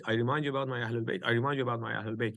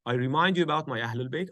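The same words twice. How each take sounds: First: Faster softer echo. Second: Said in the usual way. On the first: Shown as a demonstration. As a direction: repeat it quicker and softer, fading. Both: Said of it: "Three times he said".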